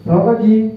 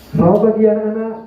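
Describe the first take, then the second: First: It is said without smiling, in a plain voice. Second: It is said smiling, with a bright voice.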